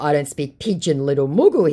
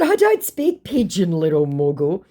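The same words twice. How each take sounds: First: Said in the usual way. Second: High start dropping to a put-down; mock taunting. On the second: Baiter belittling the scammer, mock taunting. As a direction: tease with exaggerated denial, then drop.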